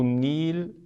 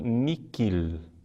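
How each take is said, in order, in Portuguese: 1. A palavra não tem consoante entre as vogais. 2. A palavra tem um som de 'k' entre as vogais. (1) "como se o H não existisse" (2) "antiga pronúncia eh, portuguesa ... com que"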